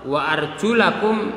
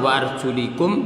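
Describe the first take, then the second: First: The vowel after 'arjul' is an a sound. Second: The vowel after 'arjul' is an i sound. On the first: The feet are washed. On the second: The feet are wiped like the head.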